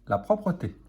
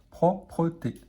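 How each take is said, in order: First: Said in the usual way. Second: Slow syllable-joined reading; careful teacher blending; blended slowly. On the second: Shown as a demonstration. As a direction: read "Propreté" slowly, syllable by syllable. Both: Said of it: "Alors là, P-R-O".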